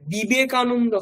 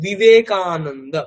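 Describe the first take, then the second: First: It starts with a full b, lips pressed together. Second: It starts with a soft v or w sound. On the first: The speaker calls it wrong. "ওটা বর্গীয় ব হবে না, মানে বিবেকানন্দ হবে না" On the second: The speaker calls it right. "ওটাকে বিবেকানন্দ"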